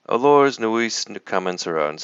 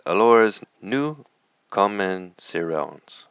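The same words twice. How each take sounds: First: High, loud parroting of his French; mocking echo with a punched first word; child mimicking tutor. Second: Exasperated lesson opener, trailing slowly; angry French tutor. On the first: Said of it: "And I say". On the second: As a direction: stretch out the French like a stern tutor. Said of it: "He says". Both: A narrator's reading.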